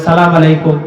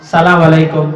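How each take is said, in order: Both takes have the same delivery.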